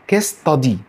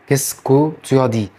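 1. يُسقط مقطع 'que' وتُدمج 'ta'. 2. تُنطق كل المقاطع، بما فيها 'tu' الكاملة. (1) "الكو اتحذفت اللي هي كيسكو" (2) "معظم الفرنسيين اصلا مش بينطقها كده"

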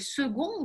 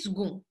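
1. Гласный после s произносится. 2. Гласный после s не произносится. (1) "есть те, которые «second» говорят" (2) "но вообще «сгон»"

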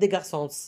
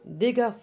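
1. Un son S final est prononcé. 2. Le S final est muet.

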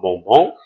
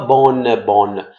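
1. La voyelle est nasale, sans son n. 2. La voyelle est orale et suivie d'un n. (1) "parce que ON fait le son O" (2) "on ne dit pas bonne, bonne"

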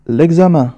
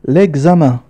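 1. يُحذف حرف العلة في أداة التعريف ويُوصل بالكلمة. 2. يُحذف حرف العلة في أداة التعريف ويُوصل بالكلمة.

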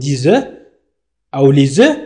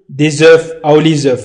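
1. لا يُنطق صوت F النهائي بعد "œufs". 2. يُنطق صوت F النهائي بعد "œufs". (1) "نقول ديز أو ليز" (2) "لا نقول ديز أو ليز"

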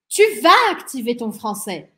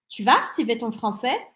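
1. A frase tem entonação enfática, exclamativa. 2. A frase tem entonação de pergunta. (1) "Exclamação" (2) "Interrogação"

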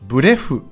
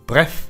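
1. 伸ばして、一息では言いません。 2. 短く、一息で言います。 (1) "とならないように気をつけましょう" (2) "発音も短く一息で"

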